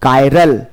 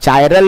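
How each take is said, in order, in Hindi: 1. यह 'k' ध्वनि और 'eye' स्वर से शुरू होता है। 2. यह 'ch' ध्वनि और 'eye' स्वर से शुरू होता है। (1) "क्या पढ़ेंगे इसको? कायरल।" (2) "चायरल नहीं पढ़ेगा"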